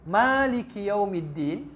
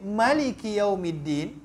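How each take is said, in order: First: The vowel after the first consonant is long. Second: The vowel after the first consonant is short. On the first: "dia bisa dibaca mimnya panjang" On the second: "Dia bisa dibaca dengan mimnya pendek"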